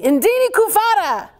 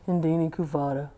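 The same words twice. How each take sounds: First: It is said in a happy, cheerful way. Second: It is said in an unhappy, flat way.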